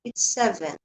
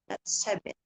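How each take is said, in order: First: "seven" said clearly; careful "seven"; correct seven. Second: "seven" said the wrong way; mispronounced "seven". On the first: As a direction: say "seven" the right way. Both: Shown as a demonstration.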